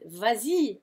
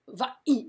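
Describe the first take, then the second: First: A z sound links the two vowels. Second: The two vowels meet with no linking sound. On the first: The speaker calls it right. "Vas-y sounds good" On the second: The speaker calls it wrong. "It would sound really awful to go va-i"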